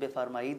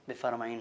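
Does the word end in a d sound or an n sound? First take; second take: d sound; n sound. First: The word ends with a d sound. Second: The word ends with an n sound. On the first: This is how it is written. "اس کا تحریری وجود بفرمائید ہے" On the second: This is how it is spoken. "تلفظ اور ادائیگی کے اعتبار سے وہی لفظ بفرمائین ہو جاتا ہے"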